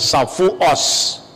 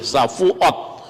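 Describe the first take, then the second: First: The word ends with an s sound. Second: The word ends with a t sound. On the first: "tapi mengucapkan Safuos" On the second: "huruf tet T"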